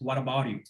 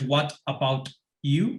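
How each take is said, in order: First: The t between vowels is a soft r. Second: The t between vowels is a hard t. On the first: The speaker calls it right. "se hacen una R suave española" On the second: The speaker calls it wrong. "no es what about you"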